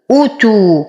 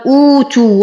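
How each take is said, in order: First: "أوتو" with a short, full u on the hamza, one beat only; ضمة قصيرة. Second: "أوتو" with the first u wrongly stretched long; إطالة الضمة خطأً. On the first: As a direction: keep the first vowel of "أوتو" brief and rounded. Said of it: "زمن حركة فقط". ("أوتو" بضمة همزة قصيرة بمقدار حركة) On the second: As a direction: drag the opening vowel of "أوتو" as a mistake. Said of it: "من الأخطاء الشائعة أن يقال". ("أوتو" بإطالة ضمة الهمزة خطأً) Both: Shown as a demonstration.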